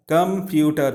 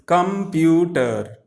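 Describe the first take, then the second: First: Said in the usual way. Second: "Computer" slowly in three separate beats, com-pu-ter; slow three-beat teaching demo of "Computer"; syllable by syllable. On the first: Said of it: "Three syllabic words". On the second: Shown as a demonstration. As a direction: stretch out each syllable of "Computer". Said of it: "come to three syllabic words".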